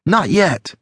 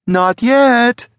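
First: High-pitched quick reassurance, not yelled; Alex, answering. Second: High, loud shrill yell; Sally, shrill yell. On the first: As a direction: answer him pitched up, without shouting. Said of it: "she said". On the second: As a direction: yell it shrilly while giving chase. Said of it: "Sally yelled shrilly". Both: A narrator's reading.

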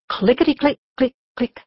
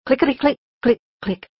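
Both takes have the same delivery.

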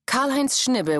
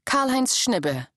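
First: Said in the usual way. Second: Name read out slowly and higher, as a title; slow heading read. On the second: A narrator's reading. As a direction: announce the name like a section heading. Chapter heading name read alone.

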